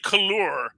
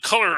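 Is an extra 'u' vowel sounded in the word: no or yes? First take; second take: yes; no. First: An extra 'u' vowel is sounded in the word. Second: No extra 'u' vowel is sounded in the word. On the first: The speaker calls it right. "but I pronounce that U. So I'll say couleur" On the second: The speaker calls it wrong. "I don't just call it color"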